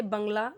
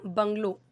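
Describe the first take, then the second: First: "बंगला" ending in a long aa; Hindi pronunciation. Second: "बंगलो" ending in a clear long o; English pronunciation. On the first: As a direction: say "बंगला" the Hindi way, closing on -laa, not -lo. ("बंगला" का हिंदी उच्चारण, अंत में आ) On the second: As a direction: model "बंगलो" the English way, closing on -lo. ("बंगलो" का अंग्रेज़ी उच्चारण, अंत में ओ) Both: Shown as a demonstration. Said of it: "इसे बंगला नहीं बोलेंगे".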